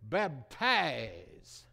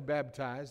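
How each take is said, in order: First: The word is said in an affected, preacherly way. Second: The word is said in an ordinary, plain way. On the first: "they'd say baptize" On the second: "they wouldn't say baptize"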